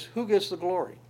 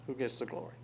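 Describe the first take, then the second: First: GETS raised high, asked outright; stress on GETS. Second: Hushed, much softer, stress on WHO; a soft, pointed echo of the question; quiet repeat. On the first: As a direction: lift the word gets well above the rest. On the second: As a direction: drop the volume way down and lean on who. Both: Shown as a demonstration.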